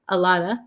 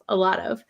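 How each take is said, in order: First: The final of shrinks to a short uh. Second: The final word of is said in full.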